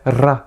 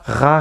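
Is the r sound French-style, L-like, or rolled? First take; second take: rolled; French-style. First: The r is rolled with the tongue tip. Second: The r is made in the throat. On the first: "On va pas non plus rouler le R" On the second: "Ne prononcez pas le R à la française. Ne dites pas ra"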